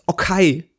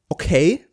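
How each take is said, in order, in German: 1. Es wird so ausgesprochen, wie die deutsche Schreibweise es liest. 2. Es wird auf die übliche englische Art ausgesprochen. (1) "die sprechen das, wie man es im Deutschen liest" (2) "die sagen nicht okay"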